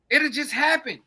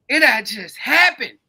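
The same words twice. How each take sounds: First: Said in the usual way. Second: It'll just happen, slowed and leaned on, louder; slow heavy emphasis. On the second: Shown as a demonstration. Warning his listeners the disaster will just come, slow and heavy. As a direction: drag out it'll just happen, weighing every word.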